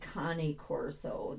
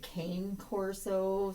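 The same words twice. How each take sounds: First: Cane is not said like the English word. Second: Cane is said like the English word cane. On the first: The speaker calls it right. "it's actually cane corso" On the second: The speaker calls it wrong. "I frequently just call it a cane corso, C A N E corso"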